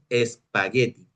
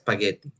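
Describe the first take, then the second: First: The word begins with an added e sound. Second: The word begins directly with the s sound. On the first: The speaker calls it wrong. "en español decimos espagueti" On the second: The speaker calls it right. "La pronunciación correcta es spaghetti, es decir, sin la E del principio"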